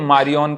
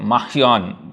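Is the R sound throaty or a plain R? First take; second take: plain R; throaty. First: The R is a plain, ordinary R sound. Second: The R is a throaty sound between R and Kh. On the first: "हम लोग तो मारियन कोटिलाड बोल देते हैं" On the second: "R और ख के बीच का"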